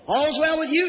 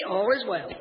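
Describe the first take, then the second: First: Higher, rising question; the questioner's raised voice; prophet questioning. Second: Lower, falling reply; the woman's lower-pitched answer; settled answer. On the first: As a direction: lift it as a quick inquiry. Prophet's question against woman's answer. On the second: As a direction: bring it down to a calm close. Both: Acted.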